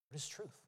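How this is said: The question is asked with a confused tone. The asker is genuinely puzzled about truth. "Did he ask confused?"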